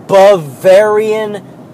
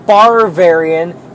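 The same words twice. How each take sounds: First: "Bavarian" slow and deliberate, buh-VAIR-ee-un; correct Bavarian. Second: "Barvarian" with an extra R in the first syllable; wrong Bavarian. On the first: Worker correcting customers, slow careful correct Bavarian. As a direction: spell out "Bavarian" slowly by syllable, no R in the first. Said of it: "It's Bavarian cream". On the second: Worker showing how customers botch Bavarian, extra-R mispronunciation. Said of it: "people cannot pronounce Bavarian". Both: Shown as a demonstration.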